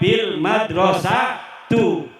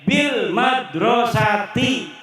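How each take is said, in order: First: The last word ends with a 'u' vowel. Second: The last word ends with an 'i' vowel. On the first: The speaker calls it wrong. "Orang uli dibaca" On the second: The speaker calls it right. "Setiap kalimat kependak B wajib dibaca jer"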